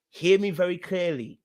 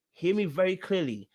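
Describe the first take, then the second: No difference in how they are said.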